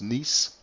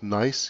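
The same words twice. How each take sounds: First: The name is said with a French pronunciation. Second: The name is said with an English pronunciation. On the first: "you can also pronounce it the French way" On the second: "I should call it Nice"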